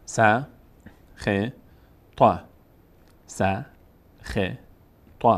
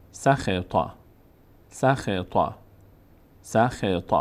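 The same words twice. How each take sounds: First: "س، خ، ط" as isolated syllables with long gaps; one by one. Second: "سخط" run together as sa-khe-ta; joined up. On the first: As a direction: spell out "س، خ، ط" one at a time. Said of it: "حرفها رو یکی یکی بخوانید". (جدا جدا) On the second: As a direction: blend "سخط" into one word. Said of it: "بعد پشت سر هم". (پشت سر هم) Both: Shown as a demonstration.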